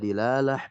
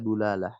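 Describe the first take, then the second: First: The first syllable has an i vowel. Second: The first syllable has a u vowel. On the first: "Bisa dilalah" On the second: "bisa dulalah"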